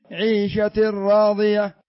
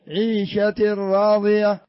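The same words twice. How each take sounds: The two takes are said the same way.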